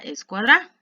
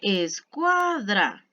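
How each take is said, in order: First: The stress is on the last syllable. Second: The stress is on the middle syllable. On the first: The speaker calls it wrong. "Si se la colocara al final" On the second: The speaker calls it right. "está el acento en la penúltima sílaba"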